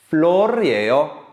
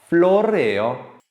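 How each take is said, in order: Both takes have the same delivery.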